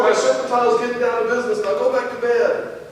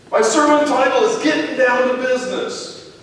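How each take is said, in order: First: Fast, clipped-off repeat to end the talk; dad repeats the title to a nosy son, fast; impatient repeat. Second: Said in the usual way. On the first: Retold or imitated. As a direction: rattle it off to get him back to bed. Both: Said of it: "Yes, I'm sure".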